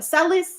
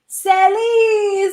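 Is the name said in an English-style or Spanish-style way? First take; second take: English-style; Spanish-style. First: The name is said in an English-style way. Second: The name is said in a Spanish-style way. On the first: The speaker calls it wrong. "Every other person is like" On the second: The speaker calls it right.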